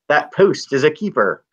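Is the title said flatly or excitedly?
excitedly. The title is said with exclamatory excitement. The speaker calls it right.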